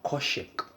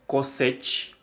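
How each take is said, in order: First: The middle consonant is an sh sound. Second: The middle consonant is a plain s sound. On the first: "this one we will pronounce as coshec" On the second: "you can say cosec or coshec"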